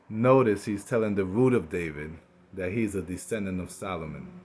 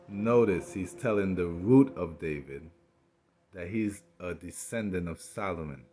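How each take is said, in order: First: It is said at normal speed. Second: It is said slowly.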